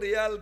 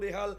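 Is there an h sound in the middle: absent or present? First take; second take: absent; present. First: The middle h sound is dropped. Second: The middle h sound is pronounced. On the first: This is the local form used in one area. "কেউ রেয়াল" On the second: This is the form used across the whole country. "সারা বাংলাদেশে রেহাল"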